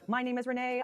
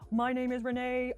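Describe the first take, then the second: First: The voice sounds neutral, on one flat pitch. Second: The voice sounds dark, big and boomy. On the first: "So this was our note" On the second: "Let your voice sound big and boomy"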